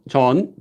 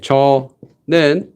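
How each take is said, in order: First: It is contracted into a single syllable. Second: It is said in full with two syllables.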